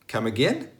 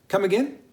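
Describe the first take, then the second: First: Cool, challenging "Come again?"; displeased. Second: "Come again" high and rising, as a query; puzzled "Come again?" asking for a repeat; didn't catch it. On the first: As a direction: take exception, questioning. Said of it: "something to you that you didn't like". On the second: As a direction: lift "again" into a high, friendly question. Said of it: "something that you didn't catch". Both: Shown as a demonstration.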